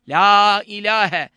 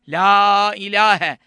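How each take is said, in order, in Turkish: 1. 'la' içindeki ünlü uzatılarak uzun okunur. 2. 'la' içindeki ünlü uzatılarak uzun okunur.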